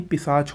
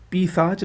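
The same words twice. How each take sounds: First: पिशाच with short first "pi"; correct pronunciation. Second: पिशाच with long first "pee"; wrong pronunciation. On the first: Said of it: "होता है". (पिशाच में छोटी "इ") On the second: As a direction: stretch the first vowel of पिशाच. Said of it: "नहीं". (पिशाच को "पीशाच" बोलें) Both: Shown as a demonstration.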